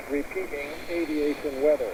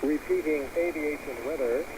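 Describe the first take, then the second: No difference in how they are said.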